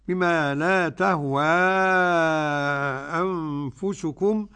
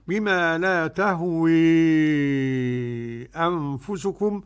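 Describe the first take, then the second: First: The final vowel is a fully open a. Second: The final vowel is strongly tilted toward e. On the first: "تهوى بقى قرأ بالفتح والتقليل ورش عن نافع" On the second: "وقرأ بالإمالة الكبرى"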